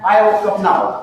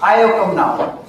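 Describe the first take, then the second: The two takes are said the same way.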